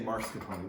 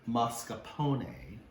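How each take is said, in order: First: An extra R sound follows the first vowel. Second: No R sound follows the first vowel. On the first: The speaker calls it wrong. "I say mascarpone, that is so wrong" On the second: The speaker calls it right. "There's no R in it"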